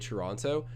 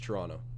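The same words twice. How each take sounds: First: The t near the end is clearly pronounced. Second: The t near the end is dropped entirely. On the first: The speaker is talking formally and monitoring his words. "Sometimes when I'm trying to talk like too formal, I say Toronto" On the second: The speaker is talking casually and naturally. "Normally, if I'm just speaking to someone, it's Toronto. Silent T at the end"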